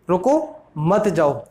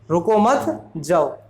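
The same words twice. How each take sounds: First: There is a pause after 'रुको'. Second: There is a pause after 'मत'.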